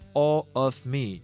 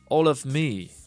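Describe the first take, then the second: First: The words are chopped apart stiffly. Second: The words are linked smoothly together.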